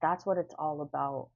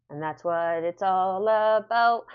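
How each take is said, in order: First: Said in the usual way. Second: "about" drawn out slow and loud; emphatic slow declaration. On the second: Shown as a demonstration. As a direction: lean hard and slow on "about". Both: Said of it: "I don't know why it came to me".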